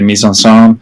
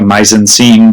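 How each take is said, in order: First: It is pronounced the French way. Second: It is pronounced the English way. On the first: "people kind of go out of their way to actually say" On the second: "as opposed to"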